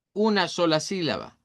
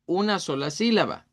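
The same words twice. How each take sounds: The two takes are said the same way.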